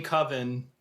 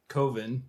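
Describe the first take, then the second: First: Coven said KUV-ən; standard short-vowel Coven. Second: Coven said COH-vən; long-O Coven. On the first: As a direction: say Coven to rhyme with "oven". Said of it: "it's pronounced Coven". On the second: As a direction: say Coven with the O of "cove". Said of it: "every time he says Coven". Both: Shown as a demonstration.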